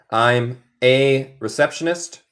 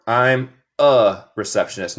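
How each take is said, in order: First: "a" said as a clear "ay"; slow model sentence with "a" pronounced like the letter A; full-vowel "a". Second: "a" said as "uh"; reduced-vowel "a". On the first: (la "a" pronunciada "ei", bien marcada) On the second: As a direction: model sentence with "a" pronounced as a separate "uh". (la "a" pronunciada como "uh", vocal neutra) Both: Shown as a demonstration. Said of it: "Note mi pronunciación".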